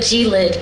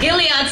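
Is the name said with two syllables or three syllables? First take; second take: two syllables; three syllables. First: The name is said as two syllables. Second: The name is said as three syllables. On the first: This is a misreading of the name. The speaker calls it wrong. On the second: This is the actual name. The speaker calls it right.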